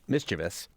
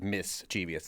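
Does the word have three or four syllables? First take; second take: three; four. First: The word is said with three syllables. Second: The word is said with an extra syllable. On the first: The speaker calls it right. "the way that I have said it, looks like how it's spelled" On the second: The speaker calls it wrong.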